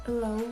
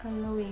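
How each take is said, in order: No difference in how they are said.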